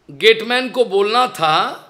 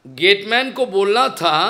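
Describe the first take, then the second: No difference in how they are said.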